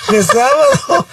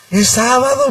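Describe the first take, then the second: First: High, laughing through the words. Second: Said in the usual way. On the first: Retold or imitated. Wife laughs at husband's mistake, laughing. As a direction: giggle as you repeat it. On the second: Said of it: "me dice".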